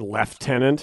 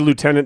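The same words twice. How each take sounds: First: It is said with an F sound. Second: It is said without an F sound. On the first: The speaker calls it wrong. "Like there's a fucking F in there somewhere" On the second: The speaker calls it right. "We say lieutenant the way it's supposed to be said"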